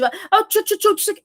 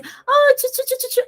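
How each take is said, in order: First: High, cross dog scolding; mock scolding. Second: High-pitched doggy cooing; excited pet talk. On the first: Trainer showing how a pet gets scared, mock angry scolding. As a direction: scold the puppy with the same silly syllables. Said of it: "mas de forma brava". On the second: Trainer showing how to greet a little dog, excited pet talk. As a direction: coo playfully in a very high voice. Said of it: "se você chegar pra ele e falar assim". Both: Shown as a demonstration.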